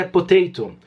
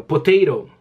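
First: "potato" with a crisp second t, "po-tay-to"; British pronunciation. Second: "potato" with a tapped second t, like "potayro"; American pronunciation. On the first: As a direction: sound both t's fully in "potato". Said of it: "Os ingleses é". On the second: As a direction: soften the last t of "potato" into a quick tap. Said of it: "os americanos pronunciam". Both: Shown as a demonstration.

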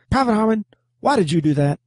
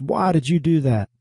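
First: High, barked drill sergeant demand; barking drill sergeant. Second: Said in the usual way. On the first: Retold or imitated. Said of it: "my drill sergeant would come down on you like a ton of bricks". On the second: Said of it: "my drill sergeant would come down on you".

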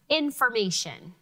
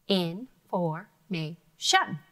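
First: Said in the usual way. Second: "Information." stretched very slow, in-for-ma-tion; slow syllables. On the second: Shown as a demonstration. Teacher models four syllables for students. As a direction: draw out each of the four beats. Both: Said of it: "What about the word".

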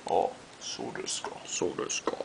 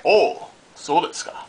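First: Hushed, whispered Japanese musing; mock sophisticated. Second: Lively "oh, so desu ka"; playful, voiced "oh, I see" in Japanese; mock realization. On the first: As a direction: murmur it knowingly, without voice. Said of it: "you're so sophisticated". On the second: Repeated Japanese catchphrase, first take.

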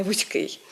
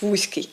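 First: Вузький stressed on the final -КИЙ; stress on ending. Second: Вузький stressed on ВУЗЬ-; mistaken first-syllable stress. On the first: Teacher gives the standard form, вузький stressed on the ending. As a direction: say вузький leaning on its last syllable. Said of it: "а не вузький". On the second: Teacher quotes the common error, вузький stressed on first syllable. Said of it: "від того кажуть вузький". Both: Shown as a demonstration.

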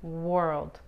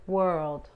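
First: "world" with rounded W lips, "wəld"; correct version. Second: "world" said as if with an R start, "werld"; wrong version. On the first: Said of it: "pero es world". ("world" con la W y labios redondeados) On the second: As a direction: say "world" like it began with R. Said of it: "si fuera una R, esta palabra sería". ("world" como si empezara con R) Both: Shown as a demonstration.

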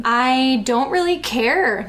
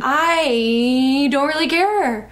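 First: Lightly sneered sarcasm, drawn out slow; acted sarcastic brush-off. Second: Hammed-up sneer with a long stretched "I"; dragged I, rushed rest. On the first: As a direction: read it with a mild sneer. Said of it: "Niall sneered sarcastically". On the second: Shown as a demonstration. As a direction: drag out "I" very long, then speed through "don't really care". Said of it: "dragging the I and speeding up on the".

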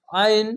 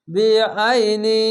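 First: Stopping short on আইন; deliberately wrong pause; wrong stop. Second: বেআইনি linked through with নি; joined reading. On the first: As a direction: cut off after আইন, the wrong way. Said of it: "আইন বলে থেমে গেছিলাম". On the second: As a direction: run বেআইনি together without stopping. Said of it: "বেআইনি উচ্চারণ করতে হবে". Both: Shown as a demonstration.

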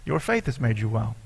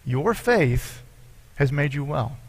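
First: Said in the usual way. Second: "Your" and "has" each pressed, with a pause between "Your faith" and "has made you well"; slow stress on YOUR and HAS. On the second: Shown as a demonstration. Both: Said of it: "note what Jesus said here exactly".

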